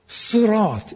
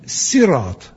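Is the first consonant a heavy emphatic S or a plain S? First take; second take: emphatic; plain. First: It begins with a heavy, emphatic S sound. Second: It begins with a light, plain S sound. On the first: "it is by Saad" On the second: "many of the Qira'ats read it as Sin"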